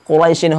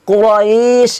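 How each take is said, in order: First: The word ends with a short -in sound. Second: The word ends on sh, with a lengthened middle. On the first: The speaker calls it wrong. "এখানে কুরাইশিন বলা যাবে না" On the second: The speaker calls it right. "কুরাইশ এরকম করে কি করতে হবে টেনে পড়তে হবে"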